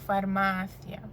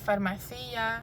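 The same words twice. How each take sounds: First: The stress falls on the syllable 'ma'. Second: The stress falls on another syllable, not 'ma'. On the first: The speaker calls it right. "the emphasis is on the penultimate a" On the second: The speaker calls it wrong. "not farmacia"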